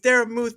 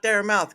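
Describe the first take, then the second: First: The last syllable sounds like 'muth'. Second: The last syllable sounds like 'mouth'. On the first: The speaker calls it right. "It's Dara Muth" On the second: The speaker calls it wrong. "not Dara Mouth"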